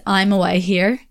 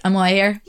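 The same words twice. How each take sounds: First: Said in the usual way. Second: Quick. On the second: Shown as a demonstration. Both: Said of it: "But you say it really quickly".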